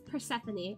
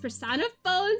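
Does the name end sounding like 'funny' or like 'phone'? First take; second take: funny; phone. First: The name ends with an unstressed 'fuh-nee'. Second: The name ends with the word 'phone'. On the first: The speaker calls it right. "It's Persephone. I looked it up" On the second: The speaker calls it wrong. "I accidentally pronounce Persephone's persona phone sometimes because I look at it and I see phone"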